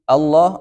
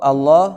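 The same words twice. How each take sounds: The two takes are said the same way.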